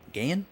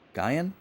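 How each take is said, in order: First: The name is said as one syllable. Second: The name is said as two syllables. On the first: The speaker calls it wrong. "Gain definitely doesn't sound right" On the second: The speaker calls it right. "We're gonna go with Gaian"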